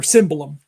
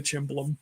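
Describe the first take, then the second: First: "cymbalum" with an s in place of ch; SIM-ba-lum for "cymbalum", correcting a slip; corrected pronunciation. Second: "cimbalom" with an Italian ch at the start; CHIM-ba-lum for "cimbalom"; mistaken Italian pronunciation. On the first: Shown as a demonstration. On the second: Real, not acted. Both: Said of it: "I gotta say it right".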